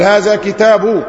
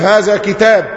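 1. الكلمة الأخيرة تنتهي بحركة ثم نون. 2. الكلمة الأخيرة تقف على حرف ساكن بدون حركة. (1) "لو عايز تظهر الحركة أقول هذا كتاب" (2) "تقف هذا كتاب"

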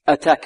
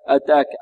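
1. تُنطق التاء مع نَفَس مسموع. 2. تُنطق التاء بدون نَفَس مسموع. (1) "والتاء هذه مهموسة" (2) "البعض يقول أتاك أتاك خطأ"

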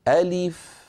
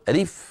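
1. المقاطع متساوية ومتماثلة في الطول. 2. المقاطع متعجلة وغير متساوية في الطول. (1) "نفس الوزن نفس الزمن نفس التقطيع" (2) "يسرعون"

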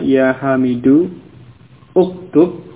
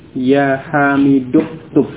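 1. Kedua kata diucapkan terpisah, dan vokal awalnya dibunyikan. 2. Kedua kata disambung tanpa vokal awal. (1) "Jadi asalnya ya hamidu uktub" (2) "hamzah wasal tidak diucapkan ya, menjadi ya hamiduktub"

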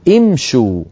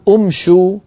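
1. أول حركة ليست 'u' مدورة. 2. أول حركة هي 'u' مدورة. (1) "بل نقول امشوا" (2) "لأن الشين مضمومة نضم الهمزة؟ لا"

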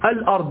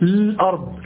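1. تبدأ الكلمة بحركة قصيرة قبل اللام. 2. تبدأ الكلمة مباشرة بلام ساكنة. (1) "لو بدأت بالأرض ماذا تقول؟ تقول الأرض" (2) "لا تقول الأرض، الأرض لا، هذا بدء بالسكون"

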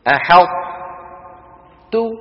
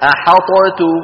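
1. الṭ ساكنة مفخمة، ثم تُنطق تاء. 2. الṭ مُظهرة تماما مع صدى. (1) "أدغمنا الطاء في التاء ولكن إدغاما ناقصا" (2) "لو أظهرنا لقلنا أحطت، فأظهرنا فقلقلنا مين؟ الطاء"

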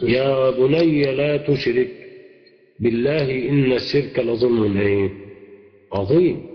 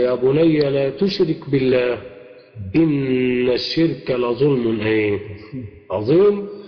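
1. يقع الوقف مباشرة بعد 'la tushrik'. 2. يقع الوقف مباشرة بعد 'billah'.

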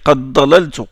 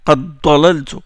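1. Le d de qad fusionne avec la consonne suivante. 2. Le d de qad fusionne avec la consonne suivante.

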